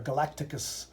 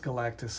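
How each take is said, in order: First: The name is said with four syllables. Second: The name is said with three syllables. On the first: The speaker calls it wrong. "I called him Galacticus" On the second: The speaker calls it right. "but it's Galactus"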